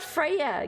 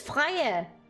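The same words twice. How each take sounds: First: The name is pronounced the English/Swedish way. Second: The name is pronounced the Danish way. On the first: The speaker calls it wrong. "it's not Freya. ... the Swedish or English way of saying Freya" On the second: The speaker calls it right. "It's Freya!"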